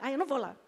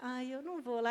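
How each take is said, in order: First: The phrase is spoken quickly, as if sped up. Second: The phrase is spoken at a normal, relaxed pace. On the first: "Porque ficou rápido" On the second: "em vez dela falar"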